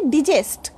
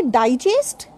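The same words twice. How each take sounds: First: "digest" with a short I in the first syllable; verb digest. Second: "digest" with a long I in the first syllable; noun digest. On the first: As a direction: say "digest" as dih-JEST. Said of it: "so digest is verb". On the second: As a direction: say "digest" as DIE-jest. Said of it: "digest is noun". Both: Shown as a demonstration.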